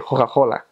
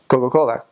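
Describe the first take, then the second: First: The c sounds are said as breathy h. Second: The c sounds are said as hard k. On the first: This is how people in Florence say it. "in Florence, the C's are pronounced as H's" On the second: This is how people in Milan say it. "in Milan, you say Coca-Cola"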